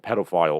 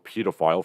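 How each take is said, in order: First: It is said with an American pronunciation. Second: It is said with a British pronunciation.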